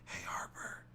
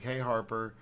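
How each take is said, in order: First: It is said in a whisper. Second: It is said in a normal voice.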